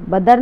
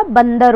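First: "बदर" said as ba-dar; wrong, without n. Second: "बंदर" said as ban-dar with a clear n; correct with n. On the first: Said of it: "बदर नहीं होता". ("बदर" बिना न के) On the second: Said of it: "बंदर होता है". ("बंदर" न की ध्वनि के साथ) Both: Shown as a demonstration.

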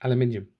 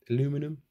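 First: "Aluminium" said the British way, al-yoo-MIN-ee-um; British pronunciation. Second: Questioning "Aluminum?" the American way, a-LOO-mi-num; American pronunciation. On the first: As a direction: correct it to "Aluminium", stress on MIN, falling. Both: Real, not acted. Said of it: "Why did I go all American?".

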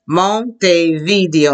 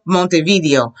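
First: "Montevideo" slowly, broken into syllables; slow modelling. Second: Said in the usual way. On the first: Shown as a demonstration. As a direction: model mon-te-vee-DEE-o for "Montevideo" piece by piece. Models a hard name slowly.

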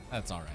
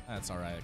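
Both takes have the same delivery.

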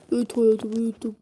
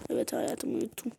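First: Louder, voiced answer; spoken out loud. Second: Whispered so as not to wake her. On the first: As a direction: say it out plainly and louder. Same answer said aloud. (aynı cevabı bu kez yüksek sesle söyleyen baba) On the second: Pretend. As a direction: breathe the answer softly. Husband whispering child is asleep. (uyuyan çocuğu uyandırmamak için fısıldayan baba)

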